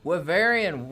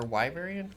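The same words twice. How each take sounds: First: Wyverian said with a short i, wi-VER-ee-an, loud; first pronunciation. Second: Wyverian said with a long i, WHY-ver-ee-an; second pronunciation. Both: Shown as a demonstration. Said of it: "or Wyverian?".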